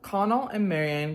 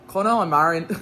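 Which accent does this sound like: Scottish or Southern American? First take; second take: Southern American; Scottish. First: It is said in a Southern American accent. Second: It is said in a Scottish-sounding accent. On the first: "I'm just gonna read it in my nice southern accent" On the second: "I feel like that's Scottish"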